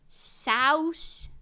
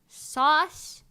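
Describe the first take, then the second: First: The vowel sounds like 'ow' in house. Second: The vowel sounds like 'aw' in saw. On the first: The speaker calls it wrong. "pronounce it wrong on purpose, like souse" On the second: The speaker calls it right. "like souse instead of sauce"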